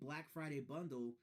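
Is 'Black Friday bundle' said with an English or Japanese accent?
English. It is said with a clear English L sound.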